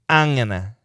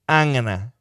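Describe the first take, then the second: The two takes are said the same way.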